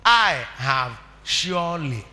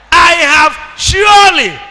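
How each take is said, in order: First: Quiet, slow and drawn out; soft. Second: Loud, high, slow preaching cry; shouted. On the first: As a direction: say it gently, almost to yourself. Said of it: "Mother, what am I?". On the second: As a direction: ring it out to the congregation. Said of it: "Babrik, "I have surely". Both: Shown as a demonstration.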